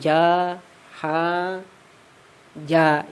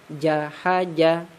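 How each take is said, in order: First: Each syllable is read separately with pauses. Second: The syllables are read joined without pauses. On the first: The speaker calls it wrong. "jangan ja, ha, ja ya. Jadi jangan seperti itu lagi bacanya" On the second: The speaker calls it right. "Bacanya jahaja"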